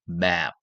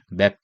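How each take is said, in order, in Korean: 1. 모음을 길게 늘여서 발음해요. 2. 모음이 짧아요, 한국식으로요. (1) "애를 길게 map" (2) "한글로 맵다 할 때 맵"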